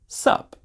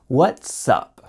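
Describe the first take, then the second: First: It is shortened to one syllable, sup. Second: Every sound is pronounced clearly, including the T. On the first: "we just have the preposition up with an S in front of it" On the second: "said in a very clear way"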